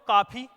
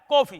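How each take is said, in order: First: The first vowel is a long aa sound. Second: The first vowel is an open half o. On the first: The speaker calls it wrong. "अगर मैं इसको ऐसे पढ़ूं तो काफी" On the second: The speaker calls it right. "ना तो कॉफी है ना काफी है, क्या है? कॉफी।"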